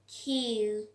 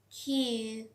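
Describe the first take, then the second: First: The Q is said with a strong puff of air. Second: The Q is said with a strong puff of air.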